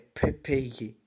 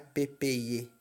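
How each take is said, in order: First: The p is said with a puff of air. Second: The p is said without a puff of air. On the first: The speaker calls it right. "Tem que sair um assopradinho junto" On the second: The speaker calls it wrong. "não é"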